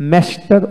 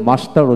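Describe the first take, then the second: First: মাস্টার with a front "ae" as in cat; flat American a in মাস্টার, like "mester"; American pronunciation. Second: মাস্টার with an open "aa" in the first syllable; broad British a in মাস্টার; British pronunciation. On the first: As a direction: say মাস্টার the American way, "mae-star". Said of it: "আর আমেরিকানে". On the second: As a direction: say মাস্টার the British way, "maa-star". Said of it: "ব্রিটিশে মাস্টার উচ্চারণ করা হয়". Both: Shown as a demonstration.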